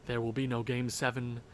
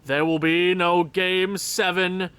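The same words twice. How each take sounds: First: Low, hushed statement; quiet first take. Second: Slower, louder, stress on "no"; declared emphatically. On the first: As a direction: say it softly to yourself. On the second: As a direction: proclaim it to make it true. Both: Shown as a demonstration. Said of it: "Wish it into existence".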